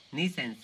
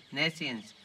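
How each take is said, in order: First: "nescience" said as "nee-sence"; mistaken pronunciation. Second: "nescience" said as "NES-ee-ence"; corrected pronunciation. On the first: Lecturer searching for the English term, mispronouncing "nescience" as "nee-sence". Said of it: "I think we, we called it". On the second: Lecturer correcting his own word, "nescience" sounded out as NES-ee-ence. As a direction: say "nescience" slowly with a short first e, NES-ee-ence. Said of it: "N-, nes". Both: Real, not acted.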